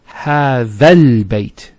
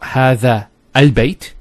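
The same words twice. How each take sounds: First: The words run together without a glottal stop. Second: A glottal stop separates the two words. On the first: The speaker calls it right. "So you go from this alif to this lam" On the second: The speaker calls it wrong. "So it's not"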